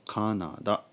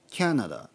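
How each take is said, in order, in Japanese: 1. 普通の ka、na、da の音で言います。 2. kya で始まり、次に na、da と続きます。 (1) "日本語で言うとカナダ" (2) "キャナダとかね"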